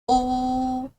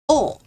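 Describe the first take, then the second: First: It is said with the first tone. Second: It is said with the fourth tone. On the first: "First tone" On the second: "Fourth tone"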